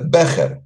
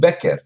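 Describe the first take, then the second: First: The middle consonant is not a hard k. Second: The middle consonant is a hard k.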